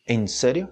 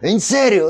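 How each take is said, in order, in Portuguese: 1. Diz-se com tom decepcionado e irritado. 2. Diz-se com tom animado e entusiasmado. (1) "me emputei com nada" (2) "Lo, lo lograste?"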